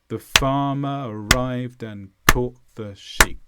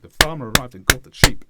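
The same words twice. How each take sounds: First: The sentence is said slowly. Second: The sentence is said fast.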